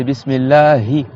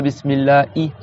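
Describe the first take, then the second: First: Bismillahi with a slow, audible breathy h; clear h. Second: Bismillahi with the h left out, "bismillai"; dropped h. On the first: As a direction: sound the h of Bismillahi from the throat. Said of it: "C'est Bismillahi". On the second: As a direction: swallow the final h in Bismillahi. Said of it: "C'est pas Bismillahi". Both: Shown as a demonstration.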